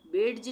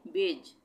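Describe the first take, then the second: First: "बेड्ज" with an audible d; wrong pronunciation. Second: "बेज" with no separate d; correct pronunciation. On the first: Teacher shows the reading to avoid, d heard in "बेड्ज". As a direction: sound the d before j in "बेड्ज". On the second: Teacher gives learners the right reading, "बेज" without d. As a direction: say "बेज" firmly, d silent. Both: Shown as a demonstration. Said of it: "बेड्ज नहीं पढ़ेंगे".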